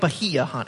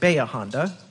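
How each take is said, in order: First: The name is said the way it is spelled. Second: The name is said in the local way. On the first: This is how the written name suggests it is said. "But it does look like Bahia Honda" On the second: This is how people who live there say it. "we locals pronounce it Baya Honda"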